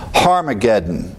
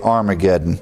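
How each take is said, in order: First: The word begins with an H sound. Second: The word begins directly with a vowel. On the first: This is the Greek pronunciation with rough breathing. "You add an H sound to the pronunciation" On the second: This is the usual popular pronunciation. "we just drop that H and say Armageddon"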